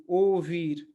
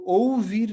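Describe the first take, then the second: First: ओ वीर with ओ glided into वीर as one joined sound; ओ वीर run together, the right way; joined right reading. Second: ओ वीर with ओ and वीर said as two separate parts; ओ वीर split apart, the wrong way; split wrong reading. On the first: Teacher showing students the correct joined ओ वीर. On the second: Teacher showing students the wrong split reading of ओ वीर. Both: Shown as a demonstration. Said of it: "इसको ओ वीर नहीं".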